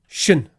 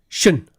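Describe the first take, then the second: Both takes have the same delivery.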